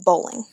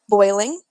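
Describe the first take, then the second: First: The first vowel is an 'oh' sound. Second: The first vowel is the usual 'oy' sound. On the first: The speaker calls it wrong. "he said bowling" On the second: The speaker calls it right. "instead of saying boiling"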